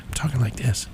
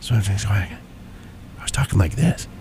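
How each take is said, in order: First: Very soft, barely voiced talk; whispering. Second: Hushed, halting, much softer voice; whispering. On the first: Telling his friend how he was talking, whispered. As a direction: imitate talking far too quietly to hear. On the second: Retold or imitated. Showing how he talked after the flight, whispered. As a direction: demonstrate a voice too faint to hear. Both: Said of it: "You're whispering to me".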